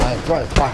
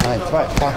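Both takes have the same delivery.

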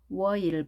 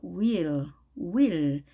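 First: "will" split into wo and il; sounded out. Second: "will" run together as one wil syllable; quick blended word. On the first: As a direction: say "will" in pieces, wo-il. ("will"을 워-일로 나눠서) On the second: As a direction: blend "will" into a single syllable from round lips. ("will"을 윌로 빠르게 이어서) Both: Shown as a demonstration. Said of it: "빨리 하니까요".

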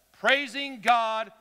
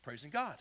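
First: Loud, drawn-out declaration; loud praise. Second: Soft, lower restrained voice; praise without yelling. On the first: Preacher reads the verse to the congregation, loud praise. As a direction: proclaim it slowly at full voice. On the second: Preacher shows praise needs no shouting, softly spoken. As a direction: bring it right down, no yelling. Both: Shown as a demonstration. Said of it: "You don't even have to yell".

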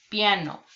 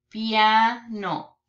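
First: Said in the usual way. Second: PIANO split as "piaa... no", first part held; syllable by syllable. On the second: Shown as a demonstration. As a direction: say "piano" in two separated syllables. Syllable take, then whole word.

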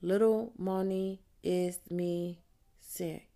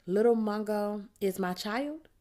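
First: Said in the usual way. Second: Put-on "Little Mungo is my child?" ending on a rising question. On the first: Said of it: "I copy Little Mungo's name". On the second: Teacher reads Precious's journal back, asking, rising. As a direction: lift the end of "child" like a query. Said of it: "She have question in her voice".

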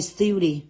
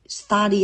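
First: "study" said as STEW-dee; "study" pronounced STYOO-dee. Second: "Study" said as STA-dee; "Study" pronounced STAH-dee; open-vowel study. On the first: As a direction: say "study" with an ew glide in the first syllable. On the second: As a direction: say "Study" with an open ah in the first syllable. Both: Shown as a demonstration. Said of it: "Study hay study?".

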